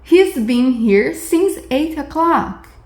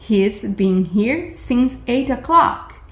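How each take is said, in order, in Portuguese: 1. O verbo é encurtado para um único som de s. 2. O verbo é encurtado para um único som de s.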